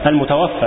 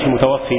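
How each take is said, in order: First: The word ends in a long 'a' sound. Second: The word ends in a long 'ee' sound. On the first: The one who has died. The speaker calls it right. "والمتوفى بفتح الفاء اسم مفعول وهو الميت" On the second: The one who causes death. The speaker calls it wrong. "المتوفي بكسر الفاء اسم فاعل وهو الله تعالى"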